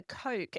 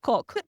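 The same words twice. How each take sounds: First: "Coke" with the Aussie "oh-oo" glide; corrective long vowel. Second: "Coke" mimicked with a short open "o", like "cock"; imitated wrong vowel. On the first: Retold or imitated. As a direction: model "Coke" for a sister, vowel fully rounded. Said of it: "it's the". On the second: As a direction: cut the glide from "Coke", imitating her sister. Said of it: "that's not how you say it".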